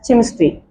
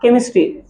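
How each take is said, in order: First: The word begins with a ch sound. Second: The word begins with a k sound. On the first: The speaker calls it wrong. "We can't call it as chemistry" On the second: The speaker calls it right. "pronounce it as ka, chemistry"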